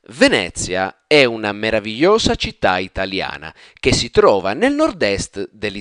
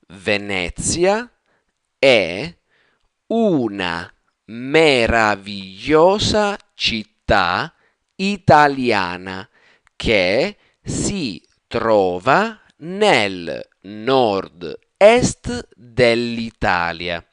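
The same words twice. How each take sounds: First: It is said quickly and fluidly. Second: It is said slowly and carefully.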